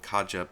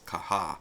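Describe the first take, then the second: First: The name is said with an English pronunciation. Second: The name is said with a Spanish pronunciation. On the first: The speaker calls it wrong. "I've heard some people call it Kaja" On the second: The speaker calls it right. "this is a Spanish pronunciation, so the correct way to say that is Caja"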